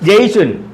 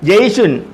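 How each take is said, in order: Both takes have the same delivery.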